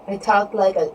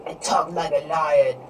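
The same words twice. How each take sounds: First: Said in the usual way. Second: Lightly voiced lion, a little lower; playful lion voice. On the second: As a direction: put on a mock lion voice.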